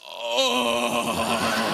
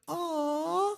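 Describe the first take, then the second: First: It is said in a coarse, rough voice. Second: It is said in a soft, sweet voice.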